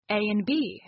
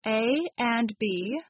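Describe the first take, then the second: First: "and" shrunk to a bare n in "A and B"; reduced "and". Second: Said in the usual way. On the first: Shown as a demonstration. Teacher giving an example of reduced speech, "and" cut to n. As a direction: say "A and B" as "A 'n' B". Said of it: "the and gets reduced to N". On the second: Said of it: "why do native speakers change or omit".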